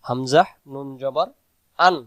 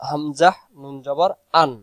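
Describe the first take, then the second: Both takes have the same delivery.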